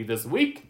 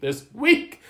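First: Said in the usual way. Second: This week louder and higher, week rising; emphatic repeat. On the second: Acted. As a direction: hammer home how bad this week was.

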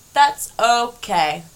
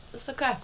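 First: "That's okay" drawn out slowly and louder; emphatic reassurance. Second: Much softer, lightly raised pitch; soft reassurance. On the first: Host reassures listeners with a slow, louder "That's okay". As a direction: stretch "That's okay" out firmly, half speed. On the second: Host forgives herself for sleeping all day, soft reassurance. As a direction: say it gently and quietly. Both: Real, not acted.

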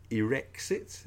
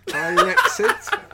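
First: Irexit with a short ih at the start, "ih-REX-it"; first pronunciation of Irexit. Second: Irexit drawn out high, starting "eye", "EYE-rexit"; alternative pronunciation of Irexit. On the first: Podcaster quoting a speech to co-host, Irexit said "ih-REX-it". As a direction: say Irexit opening like "irritate". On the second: Podcaster puzzling over the word, Irexit said high as "eye-REX-it". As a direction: stretch Irexit slowly, opening like "Ireland". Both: Shown as a demonstration. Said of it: "is it? Irexit?".

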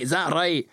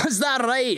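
First: Said in the usual way. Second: Amused guard. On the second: Acted.

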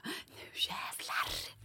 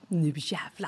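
First: Hushed voiceless vow of determination; whispered vow. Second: Softer low determined vow; low quiet vow. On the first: [name] before the test, whispering her determined vow. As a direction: whisper it like a secret battle cry. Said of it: "Så jag bara". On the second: [name] before the bar quiz, low muttered vow. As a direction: mutter it under your breath. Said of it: "Jag bara". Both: Retold or imitated.

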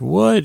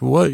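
First: Shocked what. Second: Said in the usual way. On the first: Retold or imitated. Walt voiced, outraged at cut.

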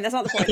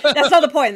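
First: Said in the usual way. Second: Laughing. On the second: Real, not acted. Laughing at own comment.

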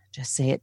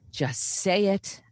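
First: Self pep talk. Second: JUST SAY IT drawn out slow and higher; slow, higher-pitched push to oneself; insistent self-urging. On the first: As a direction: talk yourself into it, understated. Self pep talk in her head. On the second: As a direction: stretch out "Just say it", pitch raised. Self pep talk, repeated more insistently. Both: Retold or imitated.

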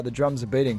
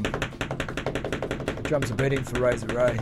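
First: Said in the usual way. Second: Slow, low, ominous drumroll build; dramatic announcer. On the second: Shown as a demonstration. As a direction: intone it like a movie trailer.

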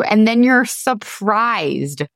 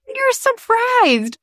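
First: Said in the usual way. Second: High, slow, mock-shocked gasp of a line; mock surprise. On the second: Shown as a demonstration. Mocking listeners who act shocked every year, high and slow. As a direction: play up fake astonishment, drawn out.

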